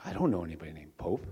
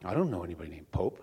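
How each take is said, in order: First: Low, gentle Jesus. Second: Low, understated God voice; mock booming voice. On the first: Acted. Jesus answering Saint Peter about the Pope, very gentle voice. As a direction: answer mildly and low, as a kindly comic Jesus. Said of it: "with a very gentle voice". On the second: God answering Saint Peter about the Pope, mock booming voice. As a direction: drop low for a comic God, without real volume. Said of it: "in this big booming voice".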